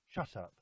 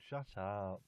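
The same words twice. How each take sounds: First: It is said in a harsh, angry tone. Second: It is said in a light, teasing tone. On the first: The speaker is truly annoyed. "the second one is I'm angry" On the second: It is meant as a joke. "The first one is like I'm joking around"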